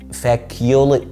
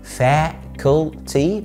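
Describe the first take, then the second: First: There is no t sound before the final vowel. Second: A clear t sound comes before the final vowel. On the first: The speaker calls it wrong. "مش فاكيولي" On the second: The speaker calls it right. "فاكولتي مش فاكيولي"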